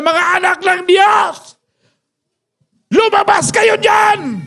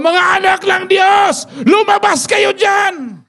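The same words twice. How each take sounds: First: High, slow taunting giant's bellow; mock giant's shout; Goliath shouting. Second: High slow giant's taunting shout; preached giant's bellow, high and slow; Goliath shouting. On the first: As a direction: bellow the challenge like a giant calling out the army. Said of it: "nung nagsisigaw na si Goliath". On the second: Retold or imitated. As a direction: call the army out like a giant. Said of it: "At sumigaw".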